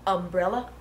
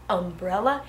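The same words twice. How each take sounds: The two takes are said the same way.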